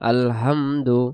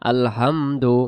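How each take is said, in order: First: The h is a soft, light breath. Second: The h is a soft, light breath.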